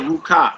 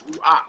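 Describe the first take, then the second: First: "Ruka" as "roo-kah"; wrong reading Ruka. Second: "Ruach" as "roo-ah"; pronounced Ruach. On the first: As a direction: say "Ruka" with a hard k in the middle. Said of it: "it's not called". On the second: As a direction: say "Ruach" with vowel following vowel, no hard k between. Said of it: "it's not called Ruka". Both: Shown as a demonstration.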